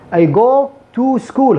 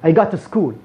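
First: The vowel in 'go' is a rounded 'o' sound. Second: The vowel in 'go' is open, mouth wide. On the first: The speaker calls it wrong. "هذا اللغة العربية أو العرب. I go to school خطأ" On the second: The speaker calls it right. "بالطريقة الصحيحة ... والفم مفتوح"

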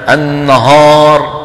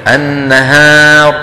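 First: The long a is heavy and darkened. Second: The long a is light and bright. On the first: The speaker calls it wrong. "بيقول لك النهار" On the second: The speaker calls it right. "بدل إيه النهار"

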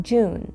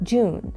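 No difference in how they are said.

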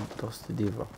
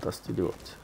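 First: The final T sound is left silent. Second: The final T sound is clearly pronounced. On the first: This is how most people say the name. The speaker calls it wrong. "Most of people call Dusty Devot" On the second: This is how the speaker believes the name should be said. The speaker calls it right. "The T is not silent"

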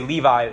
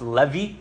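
First: The name is said with English pronunciation. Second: The name is said with Hebrew pronunciation. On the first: "we say Levi" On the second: "In Hebrew, it actually be pronounced Levi"

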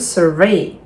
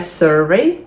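First: The stress is on the second syllable. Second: The stress is on the first syllable. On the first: It is a verb. "Дієслова, наголос на другий склад" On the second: It is a noun. "Іменник, наголос на перший склад"

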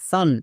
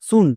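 First: The vowel is an open 'ah' sound. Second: The vowel is a short 'oo' sound. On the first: The speaker calls it right. "ইউ এর জন্য আকার sound হবে" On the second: The speaker calls it wrong. "ইউ এর জন্য হস্যকার"

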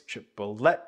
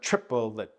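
First: The final syllable is emphasized. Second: The final syllable is not emphasized. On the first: The speaker calls it right. "have that third syllable be emphasized" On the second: The speaker calls it wrong. "So instead of"

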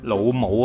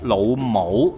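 First: 母 is said in Cantonese tone five. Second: 母 is said in Cantonese tone two. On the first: The word is a neutral term for mother. "母呢個詞咧讀第五聲" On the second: The word can be used as an insult. "咁第二声就咩啊？"

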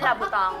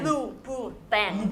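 First: The name starts with an 'lah' sound. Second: The name starts with an 'loo' sound. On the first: The speaker calls it wrong. "ไม่ใช่ลาบูตองนะคะ" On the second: The speaker calls it right. "ลูบูแตงนะคะ"

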